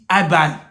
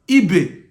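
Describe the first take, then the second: First: The name ends with an 'eye' vowel. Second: The name ends with an 'eh' vowel. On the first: This is how English speakers say it. The speaker calls it wrong. "English people are calling it Ibai" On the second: This is the name's own pronunciation. The speaker calls it right. "But the name is Ibe"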